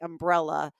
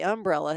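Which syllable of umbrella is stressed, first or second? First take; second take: second; first. First: The stress is on the second syllable. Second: The stress is on the first syllable. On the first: "there is a beat in my head to say umbrella insurance" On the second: "it does sound very Southern"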